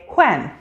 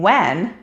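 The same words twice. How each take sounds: First: It begins with a breathy H before W. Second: It begins with a plain W sound. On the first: "someone using this sound may say when" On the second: "instead of saying when"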